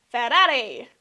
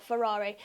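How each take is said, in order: First: Rolled r's in a loud Italian flourish; mock Italian accent. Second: Said in the usual way. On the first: Introducing the next team to viewers, mock Italian accent. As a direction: say "Ferrari" with tapped Italian r's, loudly.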